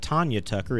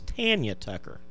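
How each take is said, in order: First: The first syllable does not sound like 'tan'. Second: The first syllable sounds like 'tan'. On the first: The speaker calls it wrong. "It's not Tanya Tucker" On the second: The speaker calls it right. "it's [name]"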